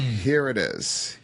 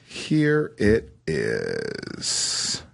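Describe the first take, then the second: First: Said in the usual way. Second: Deep slow reveal. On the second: Acted. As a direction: drop very low and drag it out. Dramatic reveal of a story.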